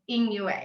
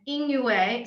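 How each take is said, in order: First: Yin yue with yin rising, then yue falling; real spoken tones. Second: Yin yue read as written, both syllables falling sharply; two fourth tones. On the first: Author giving the real pronunciation, yin rising then yue falling. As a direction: lift yin up, then drop yue sharply. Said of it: "the first fourth tone actually is a rising tone". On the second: Author reading the written tones, yin yue falling twice. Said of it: "we have two fourth tones". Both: Shown as a demonstration.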